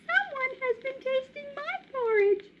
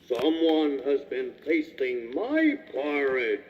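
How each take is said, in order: First: It is said in a little baby voice. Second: It is said in a great big voice.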